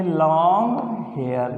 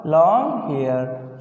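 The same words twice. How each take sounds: First: long hair drawn out slowly for writing; slow dictation. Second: Slow, drawn-out long hair; slow dictation. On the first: Teacher slowly dictating long hair to the class. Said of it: "क्या लिख दिया हमने". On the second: Teacher repeating long hair slowly for pupils. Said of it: "क्या लिख दिया बेटा". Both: Shown as a demonstration.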